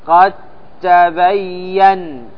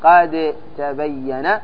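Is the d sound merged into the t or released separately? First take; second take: merged; separate. First: The d merges fully into a doubled t. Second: The d is released separately with an echoing bounce. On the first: The speaker calls it right. "وإنما تضغم فتقول" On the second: The speaker calls it wrong. "لا تأتي بالقلقلة تقول"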